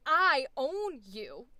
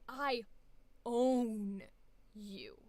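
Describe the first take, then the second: First: I own you with every word stressed the same; equal emphasis. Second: I own you rising on own, dying away on you; shaped stress. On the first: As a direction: hit all three words evenly. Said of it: "equal emphasis". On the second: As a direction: let own peak then fade. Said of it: "And it went like this". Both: Shown as a demonstration.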